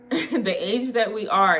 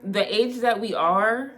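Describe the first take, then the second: First: Slower, laughing, emphasizing each word; laughing restatement. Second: Said in the usual way. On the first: Real, not acted. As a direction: repeat it slower through a laugh.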